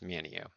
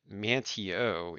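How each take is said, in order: First: The name is said without a T sound. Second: The name is said with a clear T sound. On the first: It is how people who live there say it. "if you're local here, it's Manio" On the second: It follows the written spelling. "you could pronounce it Manteo if you're reading it"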